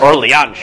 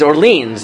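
First: The name is said in a half-French, half-English way. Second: The name is said with an American pronunciation. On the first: The speaker calls it wrong. "I don't know what that is" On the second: The speaker calls it right. "no, like, it's Orleans. Like, pronounce it like an American"

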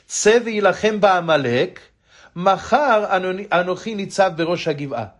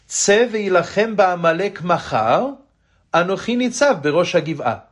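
First: The pause comes right before 'machar'. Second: The pause comes right after 'machar'.

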